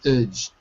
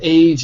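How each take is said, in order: First: The vowel is a short, reduced sound. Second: The vowel is a full 'ay' sound. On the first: The speaker calls it right. "it's edge" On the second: The speaker calls it wrong. "Instead of age"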